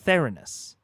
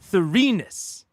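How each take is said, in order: First: The stress falls off the middle syllable. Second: The stress falls on the middle syllable. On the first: The speaker calls it wrong. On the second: The speaker calls it right. "Emphasis on the middle syllable"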